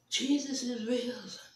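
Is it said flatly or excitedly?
flatly. It is said flatly, without excitement.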